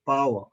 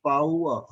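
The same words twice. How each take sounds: First: Said in the usual way. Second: "power" spoken slowly, the glide drawn out; slow pronunciation. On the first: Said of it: "Otherwise, it is, if we speak slowly". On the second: Shown as a demonstration. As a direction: stretch "power" so each vowel is heard. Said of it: "if we speak slowly".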